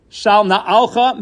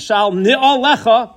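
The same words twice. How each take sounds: First: "na'alcha" as na-AL-kha, three syllables; contrasted short form. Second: "ni'olecha" as ni-o-LE-kha, four syllables, pitched higher; contrasted long form. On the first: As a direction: stress the middle syllable in "na'alcha". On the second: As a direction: lift and separate the vowels of "ni'olecha". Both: Shown as a demonstration. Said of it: "What's the difference?".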